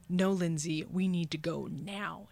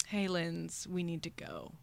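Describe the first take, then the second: First: Mock-stern order from the gut; insistent talking body. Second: Quiet, measured inner nudge; talking stomach. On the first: Her body insists she leave the flirting, firm inner voice. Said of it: "my body goes". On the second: Retold or imitated. Her stomach warns her mid-flirting, quiet talking-stomach voice. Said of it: "my stomach just goes".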